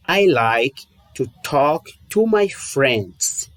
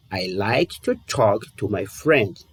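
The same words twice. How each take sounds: First: "I like to talk to my friends" spoken slowly, word by word; slow model sentence. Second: "I like to talk to my friends" again, slow and softer; slow softer repeat. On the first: Teacher models the English sentence slowly for students. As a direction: read it out slowly for the learner to copy. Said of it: "Vou te dar um exemplo". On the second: Teacher repeats the example slowly and softly for students. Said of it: "De novo". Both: Shown as a demonstration.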